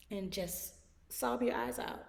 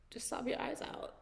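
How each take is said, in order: First: Said in the usual way. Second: A soft whispered repeat of the advice. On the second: Acted. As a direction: whisper "Just sob your eyes out" with breath, no voice.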